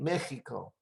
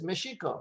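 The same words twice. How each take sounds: First: The x is sounded as a throaty h. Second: The x is sounded as sh. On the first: This is the later changed pronunciation. "everybody pronounced the X as X. Then it became Mexico" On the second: This is the original older pronunciation. "So we pronounce the X as a sh"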